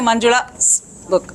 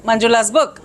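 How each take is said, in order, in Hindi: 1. 's से पहले एक विराम है। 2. नाम और 's बिना विराम के एक साथ बोले जाते हैं। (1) "We don't say" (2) "There's no pause. Part of the word"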